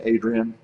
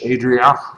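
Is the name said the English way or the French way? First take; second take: English; French. First: The name is said with an English pronunciation. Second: The name is said with a French pronunciation. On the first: "I'm just going to say Adrian" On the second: "Is it French?"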